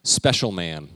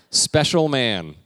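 First: Said in the usual way. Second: Slow, loud and stretched, SPECIAL man; drawn-out special man. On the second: Shown as a demonstration. Pastor reading a sign to the church, slow and loud. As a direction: spell out Special man slowly for the crowd. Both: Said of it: "Can you read that?".

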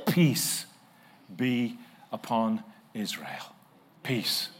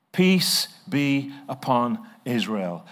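First: Slow verse reading. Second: Slow solemn reading. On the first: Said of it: "reading the verse slowly". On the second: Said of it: "reading the verse again". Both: Shown as a demonstration.

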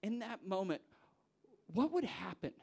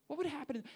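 First: Said in the usual way. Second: What would happen pitched much higher, pressing; emphatic repeat. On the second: Acted. Preacher presses the congregation, pitched up high. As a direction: push the question up high.

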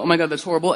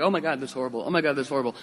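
First: Said in the usual way. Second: Soft, deflated gasp of dismay; just reacting. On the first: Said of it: "But we go". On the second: Shown as a demonstration. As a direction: sigh it out helplessly, only reacting. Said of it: "not just reacting".

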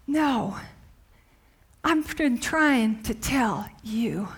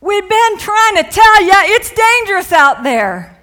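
First: Soft, slow, lower reassurance; Jesus gently correcting the disciples, soft and slow; gentle reply. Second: Mock exasperated shout. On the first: Retold or imitated. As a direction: answer quietly and tenderly. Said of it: "Jesus is saying to them". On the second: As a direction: shout it like you warned them all along. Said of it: "I can just see the disciples".

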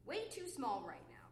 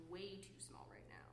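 First: Said in the usual way. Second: Near-whisper, much softer and lower; hushed. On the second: Acted. Complaining that he is being too small, hushed. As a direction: drop to a breath of a voice. Hushed, then repeated in normal voice.

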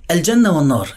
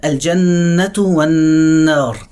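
First: Said in the usual way. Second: الجنة والنار with a held nasal ن and slow drawn vowels; tajweed ghunna, slow. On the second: Shown as a demonstration. Teacher reciting الجنة والنار slowly with ghunna. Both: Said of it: "الاتنين فيهم نون بشدة".

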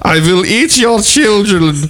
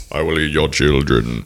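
First: High, drawn-out cartoon German accent; mock Nazi accent. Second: Put-on low child-eating monster voice; Krampus. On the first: Friend requested the accent, shrieky mock German villain. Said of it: "say that with a Nazi accent". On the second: Host teased about looking like a monster, low creature voice. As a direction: play a low, menacing folklore monster. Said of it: "You look like Krampus".

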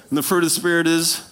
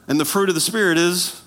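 The two takes are said the same way.

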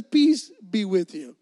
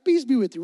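First: Slow and steady, louder, settling the room; calm reassuring. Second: Said in the usual way. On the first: Retold or imitated. Jesus calming his jumpy disciples, slow reassuring greeting. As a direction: soothe nervous friends, unhurried. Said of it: "He says". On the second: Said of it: "Relax, guys".

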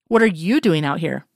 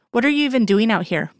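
First: "you" punched with a pitch jump; stress on YOU. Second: "What are you even doing" asked with a higher pitch; higher-pitched challenge on "even doing out here"; questioning. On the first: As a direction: turn it back by leaning on "you". He turns her question back. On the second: Girl questions him, he echoes it. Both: A narrator's reading.

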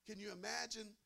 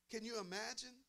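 No difference in how they are said.

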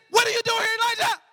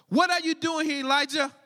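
First: Higher and louder, a startling voice from nowhere; sudden booming call. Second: Said in the usual way. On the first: Acted. God surprising Elijah in the cave, loud and sudden. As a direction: burst in to catch him off guard. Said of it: "He surprised him".

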